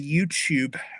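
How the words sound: It is said in a British accent.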